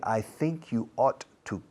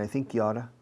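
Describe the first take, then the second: First: Ought to is said fully, with a clear to. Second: Ought to is reduced and run together as oughta.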